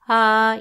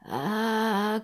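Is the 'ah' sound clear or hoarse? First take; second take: clear; hoarse. First: The vowel sounds clean and clear. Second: The vowel sounds rough and unclear. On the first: The voice has recovered enough to sing. "vous arrivez à parler clairement, c'est-à-dire le son, il est ah" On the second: The voice is still affected by illness. "il est pas ah comme ça"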